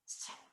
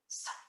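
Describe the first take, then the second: First: The s is made with a higher, closed tongue. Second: The s is made with a lower, open tongue. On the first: The speaker calls it right. "imagine an I vowel afterward" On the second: The speaker calls it wrong. "instead of f or s or h"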